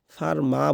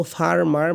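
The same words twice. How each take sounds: First: British ফার্মা, final r dropped; British farmer ending in an open ah; British accent. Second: American ফার্মার, final r sounded; American farmer with the last r pronounced; American accent. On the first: Teacher shows British usage to learners, British silent r. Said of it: "লাস্টে এই আরটা উচ্চারণ হয় না". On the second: Teacher shows American usage to learners, American final r. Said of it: "তো আমরা যদি আমেরিকানভাবে বলি". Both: Shown as a demonstration.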